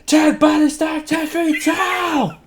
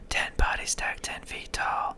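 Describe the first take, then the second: First: It is shouted loudly. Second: It is whispered softly.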